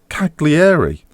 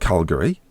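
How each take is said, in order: First: The name is said as Cagliari. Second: The name sounds like the city Calgary. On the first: The speaker calls it right. "It's Cagliari" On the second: The speaker calls it wrong. "It's not Calgary"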